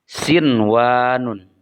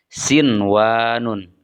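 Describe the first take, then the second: No difference in how they are said.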